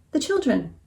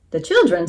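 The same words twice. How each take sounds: First: Gentle, raised-pitch appeal; pleading. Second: Incredulous rooster throwing it back; scornful echo. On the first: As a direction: appeal to the listener's kindness. Moo pleads with the rooster. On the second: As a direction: echo the plea with mild scorn. Rooster scornfully echoes Moo's plea. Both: A narrator's reading.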